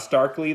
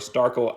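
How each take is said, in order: First: The name ends with an 'ee' sound. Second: The name ends with a plain 'l' sound. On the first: The speaker calls it wrong. "That's how I was pronouncing it before. I'm pretty sure that's wrong" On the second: The speaker calls it right. "I think it is Starkle actually"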